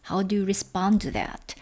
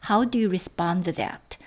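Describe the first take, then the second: Both takes have the same delivery.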